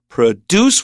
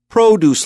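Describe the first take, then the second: First: The stress is on the second syllable. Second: The stress is on the first syllable. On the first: It means to make. The speaker calls it wrong. "not produce, which means to make" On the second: It names fruit and vegetables. The speaker calls it right. "that first syllable"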